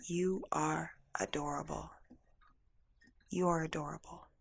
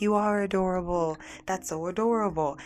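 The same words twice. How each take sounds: First: Soft, unhurried reassurance; hushed and tender; tender retold voice. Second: Lifted, gushing compliment; mildly hammed-up adoring reaction; delighted imitation. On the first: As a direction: voice a gentle message from beyond, softly. Tender voice retold at emotional peak. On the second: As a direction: imitate people melting at something cute. Imitates delighted people reacting to name.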